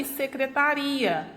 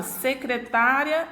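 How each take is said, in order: First: "secretaria" stressed se-cre-ta-RI-a. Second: "secretária" stressed se-cre-TÁ-ria. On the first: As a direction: move the weight to RI in "secretaria". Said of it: "ela muda de posição". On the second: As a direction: put the weight on TÁ in "secretária". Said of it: "Se eu mudar a acentuação". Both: Shown as a demonstration.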